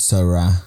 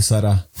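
First: "Sara" with weight on the final a; mock correct pronunciation. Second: Said in the usual way. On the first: Recalling the girl's correction, mock-teacherly "Sara". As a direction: lean on the last a of "Sara". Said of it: "se dice Sara". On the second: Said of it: "no se dice Sara".

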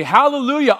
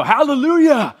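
First: A bright, raised praise cry; a joyful praise word; joyful hallelujah. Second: Loud, high burst of praise; exuberant hallelujah. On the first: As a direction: say it gladly, lifting the voice. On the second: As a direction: fire it back at the mockers with joy. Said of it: "and you go". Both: Shown as a demonstration.

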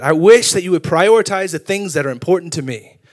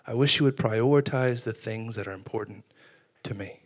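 First: Mildly raised, insistent reproach; acted domestic frustration; imitated wife's complaint. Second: Soft, low, hushed voice; near-whispered tender plea, still voiced; gentle whisper, imitated. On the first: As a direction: plead the complaint as an exasperated spouse would. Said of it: "gotten in so many arguments". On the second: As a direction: say it softly, as God quietly appealing. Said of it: "He would whisper to us".

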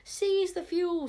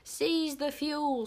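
First: High, loud, slow battle cry with SEIZE hit hardest; crowd scream. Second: Slow, loud scream with SEIZE hit hardest; lunatic scream. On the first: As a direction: scream the order like a mob, leaning on SEIZE. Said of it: "screamed a whole crowd of magic hunters". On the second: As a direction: bellow the order slowly, leaning on SEIZE. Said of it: "screamed the lunatic witch Smeller". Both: A narrator's reading.

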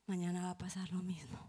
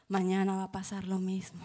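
First: Hopeless unvoiced whisper. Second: Said in the usual way. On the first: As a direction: breathe it out with no hope left. Desesperanza de niña abusada. (susurro desesperanzado)

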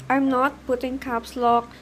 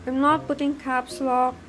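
Both takes have the same delivery.

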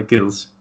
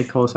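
First: "Kilsch" with a fronted vowel in place of the long O; German-style pronunciation. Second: "Kolsch" with a plain English long O; American pronunciation. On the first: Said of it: "I'll say Kilsch". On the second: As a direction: say "Kolsch" like "coal" plus "sh". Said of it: "you say Kolsch". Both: Shown as a demonstration.

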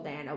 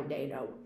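First: Dano said as DAN-oh; short A in the first syllable of Dano; first pronunciation option. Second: Dano as DAY-no, tossed off lower and softer; long A in Dano, dropped quietly; alternative pronunciation. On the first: Host hedging on an actor's name, Dano as DAN-oh. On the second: Host adding the other surname reading, low DAY-no for Dano. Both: Shown as a demonstration. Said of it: "don't know how to pronounce his fucking name".

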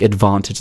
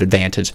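First: "advantage" with a broad "ah" as in father; British pronunciation. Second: Said in the usual way. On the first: Shown as a demonstration. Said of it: "like advantage instead of advantage". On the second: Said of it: "instead of advantage".

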